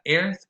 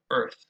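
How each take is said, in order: First: "earth" said with an open "air" vowel, eh-rth; wrong vowel demo. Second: "earth" said with the tense rounded er vowel, ur-th; correct vowel demo. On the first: Teacher demonstrating the wrong vowel to students: open eh-r in "earth". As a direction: show the learner the mistake: "earth" with an open eh-r vowel. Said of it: "not earth". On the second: Teacher modeling the correct vowel for students: tense rounded er in "earth". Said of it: "but earth". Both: Shown as a demonstration.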